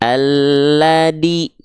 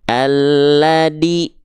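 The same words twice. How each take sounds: Both takes have the same delivery.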